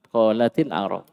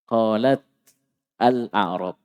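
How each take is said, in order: First: The t of qalat takes an i vowel. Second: The t of qalat has no vowel after it.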